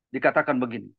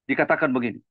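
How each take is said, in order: The two takes are said the same way.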